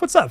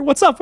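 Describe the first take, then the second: First: Said in the usual way. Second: Bright high-pitched hello to a chatter; upbeat stream welcome; excited greeting. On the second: Real, not acted.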